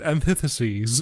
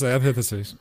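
First: The word is said slowly with careful articulation. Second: The word is said quickly with slurred articulation. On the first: The speaker calls it right. "I have to pronounce the word antitheses very deliberately" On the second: The speaker calls it wrong. "Otherwise, it's just antitheses"

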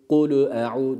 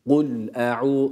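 First: An extra u vowel follows the l. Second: Kul ends cleanly on the l consonant. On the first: The speaker calls it wrong. "yani şöyle değil" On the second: The speaker calls it right. "cezmi okursak, yani hakkını verip geçersek"

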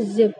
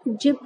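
First: The word begins with a z sound. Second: The word begins with a j sound. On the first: The speaker calls it right. "क्योंकि जा के नीचे नुक्ता लगा है" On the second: The speaker calls it wrong. "इसे हम जिप नहीं पढ़ेंगे"

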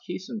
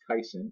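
First: The first vowel sounds like 'ee'. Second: The first vowel sounds like 'eye'. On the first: The speaker calls it right. "it is pronounced Keeson" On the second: The speaker calls it wrong. "I've heard it pronounced Kyson"

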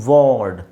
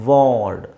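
Both takes have the same delivery.

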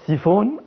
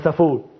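First: The first vowel sounds like 'ee'. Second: The first vowel sounds like 'ah'. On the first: The speaker calls it right. "هو اسمه سيفون ولا سافون؟" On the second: The speaker calls it wrong. "مصممين ان هو سافون"

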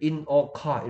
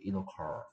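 First: Each word is said separately with small breaks. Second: The words run together without any break. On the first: This is how Korean speakers read it. The speaker calls it wrong. "한국 사람들한테 읽으라 그러면 in a car 이렇게" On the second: This is how English speakers read it. The speaker calls it right. "쭉 붙여서 읽어버리죠"

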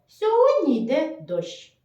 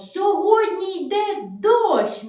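First: It is said in a plain, neutral voice. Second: It is said in a bright, joyful voice. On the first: "Нам треба сказати просто" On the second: "скажемо дуже радісно"

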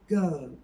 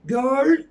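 First: The L is dark and faint, R is soft. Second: The L is clear and the R is full. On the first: The speaker calls it right. "Kalın L, belli belirsiz. R yerine de yumuşak G" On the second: The speaker calls it wrong. "Girl değil"

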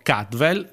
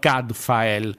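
First: The name is said differently from its spelling. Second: The name is said just as it is spelled.

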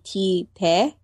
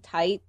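First: It is said as two syllables, 'tee-teh'. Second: It is said as one syllable like 'tight'. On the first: The speaker calls it right. "the pronunciation would be T-Te" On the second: The speaker calls it wrong. "you were saying Tite Kubo"

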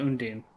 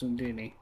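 First: The name ends on an n sound. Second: The name ends on an ee vowel. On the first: The speaker calls it wrong. "It's not Undine" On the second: The speaker calls it right. "It's Undini"

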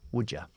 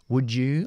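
First: The d links into a reduced schwa vowel. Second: The d links into a full 'you' vowel. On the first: "o podemos dejarlo en schwa si queremos" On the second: "juntamos siempre la D con la ya"

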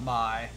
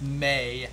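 First: The vowel sounds like the one in 'eye'. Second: The vowel sounds like the one in 'day'. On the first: The speaker calls it wrong. "not My" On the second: The speaker calls it right. "someone says it's pronounced May"

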